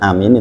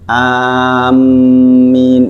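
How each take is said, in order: First: The vowels are short, with a single m. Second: The m sound is doubled and held. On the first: It means safe. "kalau satu harokat dibaca amin itu artinya aman" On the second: It means people heading to a place. "mimnya double, tasdid"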